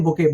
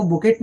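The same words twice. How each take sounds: First: बुके with a silent T; correct pronunciation. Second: बुकेट with a sounded final T; wrong pronunciation. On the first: Teacher showing students how to read it, बुके with no final T. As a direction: say बुके, ending on an open "ay" vowel. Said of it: "इसको पढ़ते हैं बुके". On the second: Teacher showing students the misreading, बुकेट with the T pronounced. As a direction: say बुकेट, ending on a hard T. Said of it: "इसको बुकेट नहीं पढ़ते". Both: Shown as a demonstration.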